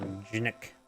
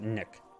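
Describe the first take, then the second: First: The name begins with a hard G sound. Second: The name begins with an N sound, G silent.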